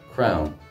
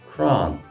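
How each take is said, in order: First: The vowel sounds like 'ow', the Munster way. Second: The vowel sounds like 'a', the Connacht way. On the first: "I'm from Munster, so I pronounce it as we do in Munster" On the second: "If you go to Connacht, you will hear it pronounced"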